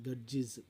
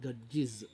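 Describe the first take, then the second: Both takes have the same delivery.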